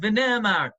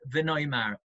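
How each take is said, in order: First: The middle vowel sounds like 'eh'. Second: The middle vowel sounds like 'oy'. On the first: They said it in the past. "the correct vocalization and pronunciation is V'Ne'emar" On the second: We will say it in the future. "in almost every Haggadah, you'll see we pronounce the word V'Noimar"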